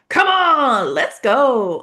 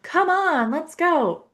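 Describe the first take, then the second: First: It is said with clear, lively excitement. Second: It is said flatly, without much emotion. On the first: The speaker really believes it. The speaker calls it right. "the emotion is really clear" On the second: The speaker does not seem to mean it. The speaker calls it wrong. "that's not gonna land"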